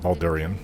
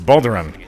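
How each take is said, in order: First: The name ends with an '-ee-an' sound. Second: The name ends with a plain '-an' sound. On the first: The speaker calls it wrong. "not Baldurian. A lot of people like to say that" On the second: The speaker calls it right. "It's Balduran"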